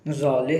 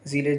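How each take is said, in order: First: The first vowel is an open 'a' sound. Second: The first vowel is an 'e' sound. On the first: The speaker calls it wrong. "ज़ाले भी बोल देते हैं कुछ लोग" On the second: The speaker calls it right. "Correct लिखा हुआ है ज़िले"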